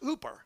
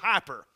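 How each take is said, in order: First: The first vowel sounds like 'oo'. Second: The first vowel sounds like 'eye'. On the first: "it's actually pronounced in the Greek language, pronounced hooper" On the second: "It's the same, very same word as hyper"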